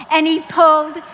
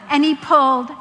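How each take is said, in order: Both takes have the same delivery.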